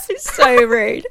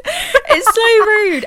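First: Laughing. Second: Squealing it out through laughter, slow; high, slow, cracking with laughter; laughing hard. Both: Real, not acted. Laughing at Twilight scene.

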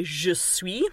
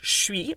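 First: "je suis" said in full, "je" clearly voiced; careful textbook "je suis" with both words spoken; "je suis" as taught in school; formal French. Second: "suis" as one slurred "shwee"; "je" swallowed into "suis", said "shwee"; casual French. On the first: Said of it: "you learn to say". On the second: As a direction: colloquial "suis" with the e dropped. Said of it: "this sometimes gets pronounced". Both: Shown as a demonstration.

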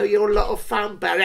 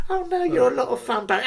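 First: Said in the usual way. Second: High, fast mocking echo of her flattery; sarcastic imitation of the girl. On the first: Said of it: "she goes". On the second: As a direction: parrot her line back, high and quick. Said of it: "I thought".

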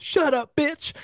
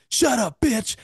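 First: High-pitched mock snap from the crowd; imitating Charlie Murphy, way up high; mock Charlie Murphy yell. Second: High-pitched mock snap from the crowd; imitating Charlie Murphy again, high and sharp; mock Charlie Murphy yell. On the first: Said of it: "Where Charlie Murphy goes". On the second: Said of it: "then you just hear Charlie". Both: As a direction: squeal it out like a heckler.

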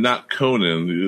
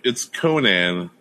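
First: "Conan" said slowly like "Conan" O'Brien, with the second syllable a weak "nun"; mocking the wrong pronunciation. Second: "Conan" said slowly as "KOH-nan", with the second syllable like "nan"; correct pronunciation. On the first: Host mimicking his co-host's wrong "Conan" in a slow voice. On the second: Host correcting his co-host on the wrestler's name, in a slow, careful voice. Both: Shown as a demonstration. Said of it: "you're saying Conan like it's Conan O'Brien".

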